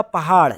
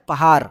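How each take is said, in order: First: पहाड़ with final flapped ड़; correct flapped ending. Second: पहाड़ said as "pahaar"; wrong R ending. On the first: Teacher giving the right reading, flapped ड़. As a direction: flick the tongue to finish पहाड़. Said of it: "इसको ड़ा बोलते हैं". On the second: Teacher showing what not to say, plain R. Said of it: "it's not a पहाड़". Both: Shown as a demonstration.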